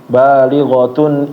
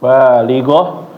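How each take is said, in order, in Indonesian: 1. Kata ini berakhir dengan bunyi t, lalu 'un'. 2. Kata ini berakhir dengan bunyi h. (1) "kalau mau nyambung dibaca semua ya" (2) "kalau stop di situ nggak mau lanjut ya"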